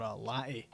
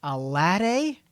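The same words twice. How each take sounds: First: "latte" said Scottish, with a crisp T; low, quiet "latte" with a clear T; dad's latte pronunciation. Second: "latte" said American-style, T softened to a D; louder, rising "latte?" with a D-like middle; sister's questioning translation. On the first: Dad ordering at Starbucks, Scottish-sounding "latte". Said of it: "my dad was trying to order a". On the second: Sister translating dad's order, questioning American-style "latte". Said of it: "my sister was like". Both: Retold or imitated.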